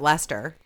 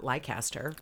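First: The name is said the usual short way. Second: The name is read out as it is spelled. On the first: The speaker calls it right. "I definitely want to check out Leicester" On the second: The speaker calls it wrong. "not Leicester, which I always thought it said on the tube things"

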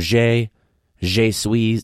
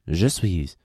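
First: The first word sounds like 'zhay'. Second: The first word sounds like 'juh'. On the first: The speaker calls it wrong. "these assholes would always get it confused" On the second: The speaker calls it right.

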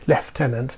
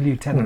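First: It is said the British way, like leftenant. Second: It is said the American way, like lootenant.

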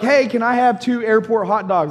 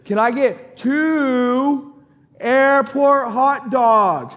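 First: It is said at normal loudness and pace. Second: It is said louder and more slowly.

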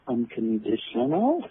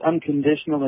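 First: The voice rises at the end, like a question. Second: The voice falls at the end, like a statement. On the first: It raises a question. The speaker calls it right. "It has a question mark there" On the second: It is a firm claim. The speaker calls it wrong. "it's not really unconditional"

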